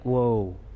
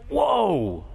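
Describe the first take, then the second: First: It is said calmly, without grief. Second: It is an anguished, grieving exclamation.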